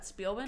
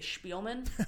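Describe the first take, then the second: First: The name is pronounced in an English way. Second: The name is pronounced in a German way. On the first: "not Spielman" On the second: "German has forever ruined me because I see her name spelled out and I want to say Spielman"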